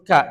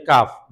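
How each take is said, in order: First: Ka with the final f left off; wrong letter name. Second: Kaf said with a closing f; correct letter name. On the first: Teacher warns students off this name, clipped-off ka. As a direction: say ka as an open syllable, no f. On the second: Teacher names the pronoun letter, correct kaf. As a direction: say kaf, ending on an audible f. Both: Shown as a demonstration. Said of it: "Jangan disebut ka, jangan".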